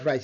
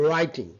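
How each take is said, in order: First: "write" with the learners' hard r; wrong pronunciation. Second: "writing" with a smooth English r, w silent; correct pronunciation. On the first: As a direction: say "write" with a tapped r, cut short. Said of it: "not write". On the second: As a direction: say "writing" with the tongue clear of the palate on r. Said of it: "it's a". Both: Shown as a demonstration.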